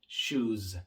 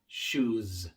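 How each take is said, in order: First: The final s is a voiced buzz. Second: The same.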